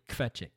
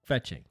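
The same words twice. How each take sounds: First: The opening K is pushed out hard. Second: The opening K is sounded more lightly. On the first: The speaker calls it wrong. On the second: The speaker calls it right.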